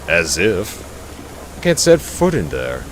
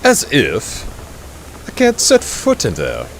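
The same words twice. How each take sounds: First: It is spoken in an ordinary, non-posh accent. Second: It is spoken in a posh, upper-class accent. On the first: The speaker calls it wrong. "I forgot to put on my posh accent for this one" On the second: The speaker calls it right. "let's try this again"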